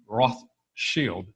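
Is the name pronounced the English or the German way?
German. The name is said with a German pronunciation. The speaker calls it right. "It really should be Rothschild"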